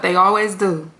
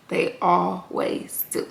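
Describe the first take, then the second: First: Said in the usual way. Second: "always" drawn out slow, much softer; hushed knowing repeat. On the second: Shown as a demonstration. Closing the recap with a soft, knowing repeat. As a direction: let "always" linger, quiet and slow.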